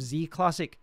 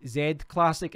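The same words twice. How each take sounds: First: "Z" said as "zee"; American "zee". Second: "Z" said as "zed"; British "zed". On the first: Quoting a viewer's preferred word, "Z" pronounced "zee". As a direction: say the Z in "Z Classic" as "zee". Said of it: "instead of Z Classic". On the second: Quoting a viewer puzzled by his word, "Z" pronounced "zed". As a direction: say the Z in "Z Classic" as "zed". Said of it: "Why did you say Z Classic instead of Z Classic". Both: Retold or imitated.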